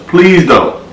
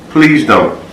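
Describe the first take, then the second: No difference in how they are said.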